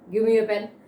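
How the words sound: Said in a firm, demanding tone. It is an order. "it's a command. So when I command it, it is my tone is different"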